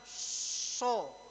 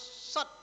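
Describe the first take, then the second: First: The vowel is said with rounded lips. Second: The vowel is said with unrounded lips. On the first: The speaker calls it wrong. "Bukan bukan so, enggak, salah itu" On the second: The speaker calls it right. "Harus shad"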